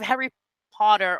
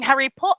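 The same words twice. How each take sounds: First: The final R sound is pronounced. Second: The final R sound is dropped. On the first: The speaker sounds like a common or American speaker. "instead of" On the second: The speaker sounds upper-class English. "they stopped pronouncing the R's"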